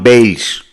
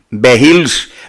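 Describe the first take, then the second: First: The H in the surname is silent. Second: The H in the surname is pronounced. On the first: The speaker calls it right. "la H es muda" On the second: The speaker calls it wrong. "como dice alguno de estos viscerales"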